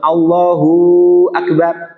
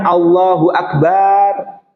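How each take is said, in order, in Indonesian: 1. Akhiran hu pada Allahu dipanjangkan. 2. Vokal setelah b pada akbar dipanjangkan. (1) "Allahu ditambahkan wawu sukun" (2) "Baknya tidak boleh dimatkan"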